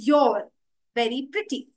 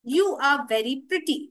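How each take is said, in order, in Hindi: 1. 'You are' संकुचित होकर एक ही सिलेबल में बोला जाता है। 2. 'You are' को दो पूरे शब्दों की तरह बोला जाता है। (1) "उसके बदले हम कह सकते हैं योर" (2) "यू आर बोलने के बजाय"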